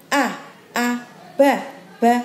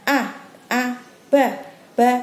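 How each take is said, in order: Both takes have the same delivery.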